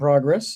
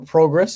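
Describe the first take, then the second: First: It is said in an American accent. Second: It is said in a Canadian accent.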